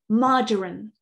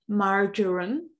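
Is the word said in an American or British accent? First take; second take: British; American. First: It is said in a British English accent. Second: It is said in an American English accent. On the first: "marjoram in British English" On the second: "marjoram in American English"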